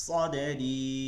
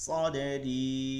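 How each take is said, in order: No difference in how they are said.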